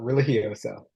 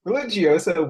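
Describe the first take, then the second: First: The name is pronounced the Spanish way. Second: The name is pronounced the Italian way. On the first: The speaker calls it right. "Spanish, so it's uh religioso" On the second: The speaker calls it wrong. "would be okay if I was Italian"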